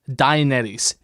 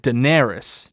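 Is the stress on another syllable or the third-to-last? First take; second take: third-to-last; another. First: The stress is on the third-to-last syllable. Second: The stress is not on the third-to-last syllable. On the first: The speaker calls it right. "stress tends to be on the third to last syllable" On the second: The speaker calls it wrong. "instead of like"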